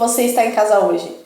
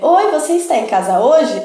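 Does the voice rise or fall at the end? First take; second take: fall; rise. First: The voice falls at the end, as a statement. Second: The voice rises at the end, as a question.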